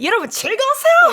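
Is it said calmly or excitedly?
excitedly. It is said in an excited, hyped way.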